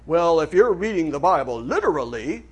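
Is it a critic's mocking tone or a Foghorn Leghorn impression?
critic's tone. It is said in a critic's mocking tone.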